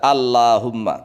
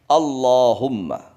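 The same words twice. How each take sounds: First: The l sound is light and thin. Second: The l sound is heavy and thick. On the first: The speaker calls it wrong. "Enggak boleh dibaca" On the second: The speaker calls it right. "lam yang tebal"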